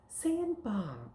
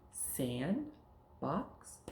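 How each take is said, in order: First: "sandbox" high, then falling, as one word; words joined. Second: "Sand" rising, gap, then "box"; two separate words, "Sand" and "box"; words kept apart. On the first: Teacher repeating the joining drill, joined "sandbox". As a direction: blend "sandbox" in one drawn-out sweep. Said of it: "take words and put 'em together". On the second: Teacher repeating the joining drill, separate "Sand", "box". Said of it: "Let's do that one again". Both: Shown as a demonstration.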